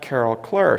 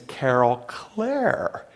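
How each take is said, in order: First: The surname sounds like the word 'clerk'. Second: The surname sounds like the end of 'eclair'. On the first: The speaker calls it wrong. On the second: The speaker calls it right. "think of a chocolate eclair. Carol's name is"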